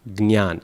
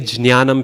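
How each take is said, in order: First: It begins with g, then n, then y. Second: It begins with a j sound followed by n. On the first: This is how South Indians say it. The speaker calls it right. "the South Indian pronunciation is probably the closest" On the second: This is an old pronunciation no longer in use. The speaker calls it wrong. "if you say jnanam, people will look at you really funny"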